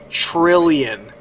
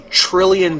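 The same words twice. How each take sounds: First: The word is said slowly and drawn out. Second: The word is said at a normal pace.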